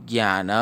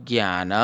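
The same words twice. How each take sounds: The two takes are said the same way.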